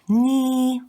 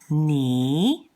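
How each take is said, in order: First: It is said with the first tone. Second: It is said with the second tone. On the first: "pronounced with the first accent" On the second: "The next one is ni"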